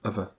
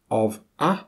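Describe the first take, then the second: First: The words are reduced with schwa. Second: Both words are said in full.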